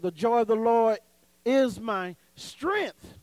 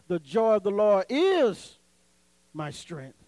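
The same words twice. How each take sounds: First: The stress falls on the word strength. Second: The stress falls on the word my. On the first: "So you're saying strength" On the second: "so you put emphasis on the my"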